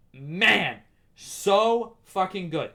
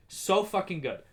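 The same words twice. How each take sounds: First: So fucking good, slow and lingering; stretched, emphatic praise; drawn-out gush. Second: Said in the usual way. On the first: Real, not acted. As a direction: savor every word. Savoring praise of the show.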